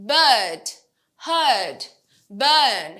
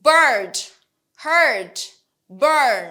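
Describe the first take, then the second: First: British BIRD, HEARD, BURN with silent r; British long er vowel, r dropped; British accent. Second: American BIRD, HEARD, BURN with sounded r; loud, clear American r-coloured vowel; American accent. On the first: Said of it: "British অ্যাকসেন্টে আরটা উচ্চারণ হয় না". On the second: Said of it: "American অ্যাকসেন্টে বলি". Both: Shown as a demonstration.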